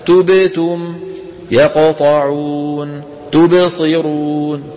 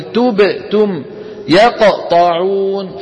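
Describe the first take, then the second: First: تبتم, يقطعون, تبصرون joined with no gap after the bounce, slow and chanted; flowing qalqala. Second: تبت said with a break after the ب before تم; cut-off qalqala. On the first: Teacher models the correct joined reading. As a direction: glide straight on from the bounce. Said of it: "علينا أن نقول". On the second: Teacher imitates learners who chop the word. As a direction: pause after the bounce in تبتم. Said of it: "يسكت قليلًا بعد الحرف المقلقل". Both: Shown as a demonstration.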